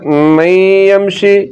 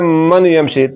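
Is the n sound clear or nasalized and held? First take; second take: nasalized; clear. First: The n merges into a lengthened nasal sound. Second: The n is pronounced clearly without nasal lengthening. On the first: The speaker calls it right. "نون کے آواز کو ناک میں لے جا کر تھوڑا سا لمبا کیا جائے گا" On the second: The speaker calls it wrong. "من یمشی یہ غلط ہے"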